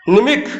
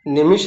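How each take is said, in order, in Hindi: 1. अंतिम व्यंजन 'kh' ध्वनि है। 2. अंतिम व्यंजन 'sh' ध्वनि है। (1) "हम पढ़ रहे हैं खा" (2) "निमिष लिखा है ना"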